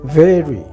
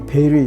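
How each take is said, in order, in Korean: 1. 부드러운 v 소리로 시작해요. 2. b 소리로 시작해요. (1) "V는 very 이건 저 아주 부드럽잖아요" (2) "우리나라 아니 한글 비읍으로 쓰면 된다고"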